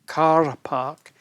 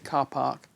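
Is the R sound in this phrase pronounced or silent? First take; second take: pronounced; silent. First: The R is sounded as a retroflex R. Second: The R is not sounded at all. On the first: The speaker calls it wrong. "some people use the um, the R, the retroflexive R" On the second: The speaker calls it right. "in normal English we say car park"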